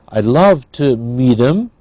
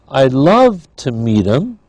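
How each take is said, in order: Both takes have the same delivery.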